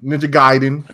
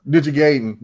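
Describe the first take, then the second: First: Gaiden said as GUY-den; first syllable of Gaiden rhymes with "eye"; alternate pronunciation. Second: First syllable of Gaiden rhymes with "day"; alternate pronunciation. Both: Shown as a demonstration. Says the name both ways.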